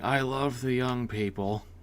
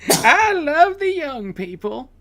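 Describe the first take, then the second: First: It is said as an impression of a politician. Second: It is said in a put-on elderly man's voice. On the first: "not to be confused with Joe Biden saying" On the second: "Old Man Jenkins"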